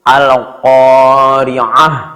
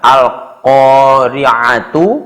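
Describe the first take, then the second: First: The word ends with a soft h sound. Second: The word ends with a tu sound. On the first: The speaker calls it right. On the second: The speaker calls it wrong.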